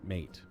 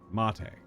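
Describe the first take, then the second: First: It sounds like the English word 'mate'. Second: It does not sound like English 'mate'. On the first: The speaker calls it wrong. "not mate" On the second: The speaker calls it right. "which is pronounced mate"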